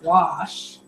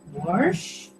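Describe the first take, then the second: First: It is said without an R sound. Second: It is said with an added R, warsh.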